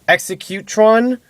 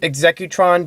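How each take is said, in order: First: The name begins like the word executioner. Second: The name begins like the word executive. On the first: He is an executioner. The speaker calls it wrong. "which would mean more of like an executioner" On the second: He is a businessman. The speaker calls it right. "because he's an executive"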